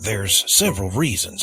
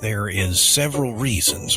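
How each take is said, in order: First: 'There is' is contracted to 'there's'. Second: 'There is' is said as two full words.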